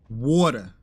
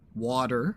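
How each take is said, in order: First: It is said in a Manhattan accent. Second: It is said in a standard American accent.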